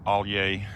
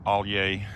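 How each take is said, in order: First: The name is said in a Cajun French way. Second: The name is said in a Cajun French way.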